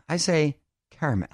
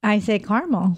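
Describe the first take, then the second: First: "caramel" said as KAIR-uh-mel, three syllables; "caramel" with the "care" vowel and a middle syllable. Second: "caramel" said as KAR-mel, two syllables; "caramel" with the "car" vowel, middle syllable dropped. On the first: Host giving his pronunciation of "caramel" in three syllables. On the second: Co-host answering with her pronunciation of "caramel" in two syllables. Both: Shown as a demonstration. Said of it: "Do you call it caramel or caramel?".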